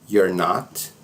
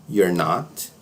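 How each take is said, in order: No difference in how they are said.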